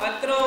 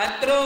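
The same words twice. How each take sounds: The two takes are said the same way.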